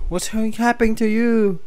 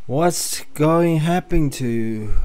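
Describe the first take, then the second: First: Same question pitched way up; high character voice. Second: Said in the usual way. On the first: Acted. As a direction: put on a high, worried character voice. Repeats line in high character voice.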